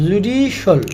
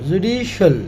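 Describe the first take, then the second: No difference in how they are said.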